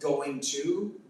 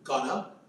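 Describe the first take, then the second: First: The two words are said separately and fully. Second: The two words are joined into one reduced word.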